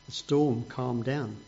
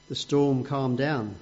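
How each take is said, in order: First: Calm and quiet. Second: Said in the usual way. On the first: Shown as a demonstration.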